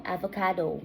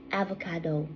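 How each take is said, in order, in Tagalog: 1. Binibigkas ito gamit ang pagbigkas na Canadian English. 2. Binibigkas ito gamit ang pagbigkas na Canadian English.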